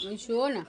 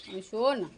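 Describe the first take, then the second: No difference in how they are said.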